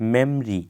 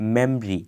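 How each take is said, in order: Both takes have the same delivery.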